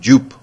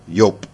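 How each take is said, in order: First: The name begins with a J sound. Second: The name begins with a Y sound. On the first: The speaker calls it wrong. "I kept calling him Jupe" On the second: The speaker calls it right. "It's more like Yope"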